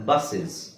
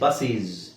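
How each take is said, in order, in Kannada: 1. ಎರಡನೇ ಸ್ವರ ಚಿಕ್ಕ, ದುರ್ಬಲ 'uh' ಆಗಿದೆ. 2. ಎರಡನೇ ಸ್ವರ 'ee' ತರ ಉಚ್ಚಾರ ಆಗುತ್ತೆ. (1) "ಇದು ವಿಚಿತ್ರ ಅಂತ ಅನ್ಸುತ್ತೆ, ಬಟ್ ಹಾಗೆ ಹೇಳುದು" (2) "ಬಸ್ಸೀಸ್ ಅಂತ ಹೇಳಂಗಿಲ್ಲ"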